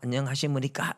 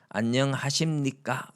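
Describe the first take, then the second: First: An extra vowel makes the ending 'simunikka'. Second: The ending is a closed 'simnikka' sound. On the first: The speaker calls it wrong. "안녕하시무니까가 아니다" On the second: The speaker calls it right. "이렇게 교정을 해줬습니다"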